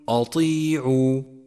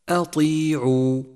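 First: The opening hamza is heavy and thickened. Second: The opening hamza is light, not thickened. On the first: The speaker calls it wrong. "وخطأ أن تقول" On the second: The speaker calls it right. "فرققها وفخم الطاء أي هكذا"

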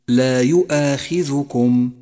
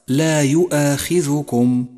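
The two takes are said the same way.

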